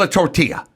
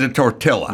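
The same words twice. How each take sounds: First: "tortilla" said "tor-tee-ya", no L sound; Spanish double L. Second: "tortilla" with a hard L, "tor-till-a"; L sounded in tortilla. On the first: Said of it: "you told me it's called". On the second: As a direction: say the double L of "tortilla" as written. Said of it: "you said the double L". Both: Shown as a demonstration.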